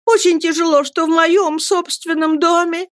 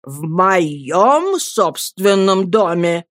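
First: High-pitched aggrieved wife; protesting mother. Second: Husband slowly throwing her words back; stern echo. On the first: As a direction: complain in a high, wounded voice. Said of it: "продолжала матушка". (высоким голосом, жалобно протестуя) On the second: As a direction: repeat it slowly, weighing each word in rebuke. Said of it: "повторил мистер Мордстон". (медленно, грозно переспрашивая) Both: A narrator's reading.

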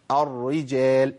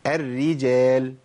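First: "الرجال" slow with a thick, dark first ra, like "arri-jel"; wrong heavy ra. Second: "الرجال" very slow, thin doubled ra, like "erri-jel"; correct light ra. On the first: Teacher warns what not to say, heavy ra. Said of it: "ما أقولش". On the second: Teacher answers how to say it, slow thin ra. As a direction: stretch "الرجال" with both ra's light. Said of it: "يبقى أقول إيه؟". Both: Shown as a demonstration.

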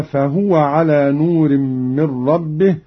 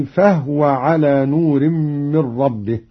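First: فهو said "fahuwa"; vowelled ha. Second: فهو said "fahwa"; no vowel on the h of فهو; silent ha. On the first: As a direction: put a short u on the h of فهو. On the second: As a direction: recite فهو as two syllables, fah-wa. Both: Shown as a demonstration. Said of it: "بإسكان الهاء".

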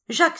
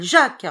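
First: Said in the usual way. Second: A desperate call, much higher and louder; loud anguished cry. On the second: A narrator's reading. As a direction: shout the name high and loud in alarm. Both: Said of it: "s'écria-t-il".

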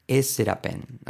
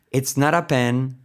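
First: "es ser a pen" said as Spanish syllables; spanglish mispronunciation. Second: "it's not a pen" with not linked as "naɾ"; connected English t. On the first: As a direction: read "es ser a pen" Spanish-style, word by word. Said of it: "Fijaros lo mal que quedaría". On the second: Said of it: "So, it's not a". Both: Shown as a demonstration.

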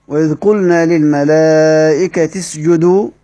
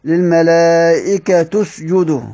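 First: Slow recitation, للملائكة اسجدوا linked as "lil-malaa'ikati-sjudu"; an i on the final t of للملائكة; kasra reading. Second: Slow recitation, للملائكة اسجدوا linked as "lil-malaa'ikatu-sjudu"; a u on the final t of للملائكة; damma reading. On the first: Teacher recites the verse for students, slowly, للملائكة ending in -ti. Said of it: "قرأ بكسر التاء". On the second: Teacher recites the variant reading, slowly, للملائكة ending in -tu. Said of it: "طب من قرأ بالضم؟". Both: Shown as a demonstration.

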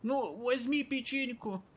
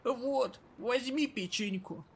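First: High, slow, hoarse granny voice; wheezing old lady pushing a cookie; raspy old woman. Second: Put-on raspy old woman. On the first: Acted. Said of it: "весьма сильно хрипит". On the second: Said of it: "раскрыла старушка пакет".

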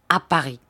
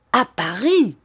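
First: Said in the usual way. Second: A sudden astonished outburst; repeating the city in shock, louder; startled exclamation. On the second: Acted. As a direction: cry it out, caught off guard. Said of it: "s'écria Sir Hassel".

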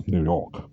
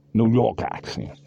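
First: Said in the usual way. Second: Put-on slow, higher, old-world New York gangster drawl; New York gangster accent. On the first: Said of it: "whatever accent that is". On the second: Shown as a demonstration. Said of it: "old world New York gangster".

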